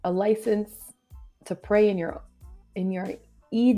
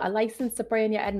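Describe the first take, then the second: First: The last word is said with a long "ee" vowel. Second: The last word is said with a short "e" vowel. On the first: The speaker calls it wrong. "I butchered that so badly. ... I said EAD" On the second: The speaker calls it right. "let me see if I can say this right"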